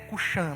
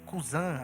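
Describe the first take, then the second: First: The middle consonant is an 'sh' sound. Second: The middle consonant is an 's' sound. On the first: The speaker calls it right. "a pronúncia mais certa é Cuxã mesmo" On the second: The speaker calls it wrong. "A sua Bíblia pode ter Cusã aí"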